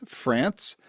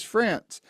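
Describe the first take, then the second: First: Said in the usual way. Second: France said higher, falling firmly at the end; stress on France. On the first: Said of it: "Not Paris, Texas, but Paris". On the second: Shown as a demonstration. Host correcting Paris Texas, stressing the word France. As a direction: land hard on France to set it against Texas. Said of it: "Texas, but Paris".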